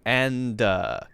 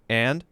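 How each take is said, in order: First: The word ends with an added 'uh' vowel. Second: The word is cut short with no added vowel. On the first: The speaker calls it wrong. "you added an uh" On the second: The speaker calls it right. "you just cut that short and you just say and"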